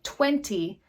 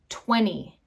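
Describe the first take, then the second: First: The T after the N is clearly pronounced. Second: The T is dropped, leaving only an N sound.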